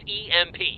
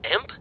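First: It is said as three separate letters. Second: It is said as the single word imp. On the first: The speaker calls it right. "It's initials for electromagnetic pulse" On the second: The speaker calls it wrong. "That's not how you say it"

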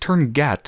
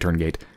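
First: The second word ends with a short 'a' vowel. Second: The second word ends with a long 'ay' vowel. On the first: "Which I could have sworn was pronounced turn gat" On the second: "so I'm going to say turn gate"

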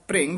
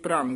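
First: The vowel after bhr is an i sound. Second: The vowel after bhr is an a sound. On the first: The speaker calls it right. "ਭ੍ਰਿੰਗ ਉਚਾਰਨ ਕਰਨਾ" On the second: The speaker calls it wrong. "ਭ੍ਰੰਗ ਨਹੀਂ ਕਹਿਣਾ"

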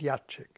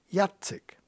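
First: The c sounds like 'ch'. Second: The c sounds like 'ts'. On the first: The speaker calls it wrong. "Im nächsten Moment Jacek" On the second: The speaker calls it right. "der hat kein Hacek drauf"

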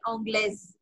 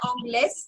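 First: The word ends with a z sound. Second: The word ends with an s sound. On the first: The speaker calls it right. "ज की sound" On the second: The speaker calls it wrong. "ऑंग्लेस नहीं"

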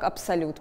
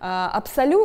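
First: The word ends with a t sound. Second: The word ends on a vowel, without t. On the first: This is the established Russian form of the word. "в русском языке устоялся перевод" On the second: This is the French form of the word. "это французский вариант этого слова"

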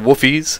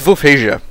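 First: The name is pronounced with English-style sounds. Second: The name is pronounced with native-style sounds. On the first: The speaker calls it wrong. "because that would be a bit too Englishized" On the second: The speaker calls it right. "But the proper pronunciation"

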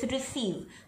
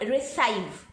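First: The second syllable has an 'ee' vowel. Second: The second syllable has an 'eye' vowel. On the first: The speaker calls it right. "it's receive" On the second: The speaker calls it wrong. "So it's not receive"

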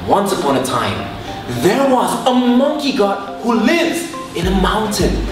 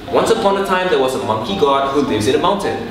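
First: The voice shifts in pitch, pace and loudness. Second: The voice stays even, plain and unchanging. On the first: The story sounds exciting and draws listeners in. The speaker calls it right. "when you exaggerate things, people will be like, alright, what's gonna happen?" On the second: The story sounds ordinary and unexciting. The speaker calls it wrong. "I could say like this"

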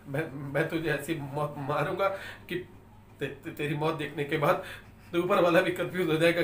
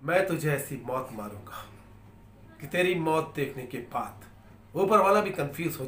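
First: It is said fearfully, with stammering. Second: It is said steadily, without fear.

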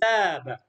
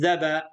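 First: The vowel is long. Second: The vowel is short. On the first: The speaker calls it right. "عندنا مد، نقول ذاب" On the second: The speaker calls it wrong. "لا نقول ذب"

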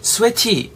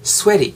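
First: The t is pronounced as a clear t. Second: The t is a soft l-like flap. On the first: The speaker calls it wrong. "sweaty 라고 하지 마시고" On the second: The speaker calls it right. "t 사운드가 약간 tig 사운드가 리을 정도로 발음이 되거든요"

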